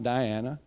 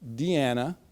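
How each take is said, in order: First: The first syllable sounds like 'die'. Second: The first syllable sounds like 'dee'. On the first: The speaker calls it wrong. "not Diana" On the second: The speaker calls it right. "that's Deanna"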